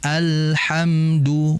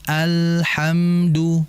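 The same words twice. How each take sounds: No difference in how they are said.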